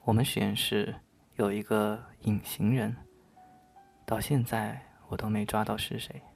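It is read in a spooky ghost-story voice.

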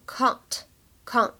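The vowel is a broad, open ah sound. "在英式发音当中我们可以读成can't"

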